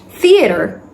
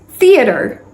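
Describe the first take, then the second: First: It is said in an American accent. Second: It is said in an American accent.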